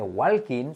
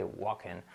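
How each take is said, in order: First: "walking" as "wal-keen", L pronounced; wrong L sounded. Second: "walking" as "WAH-ken", no L; silent L. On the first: Teacher showing what not to say, wrong L sounded. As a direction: say "walking" Spanish-style with a full L. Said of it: "no se dice walking". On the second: Teacher giving the native form, silent L. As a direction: drop the L from "walking", lower. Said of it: "se quita la L simplemente". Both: Shown as a demonstration.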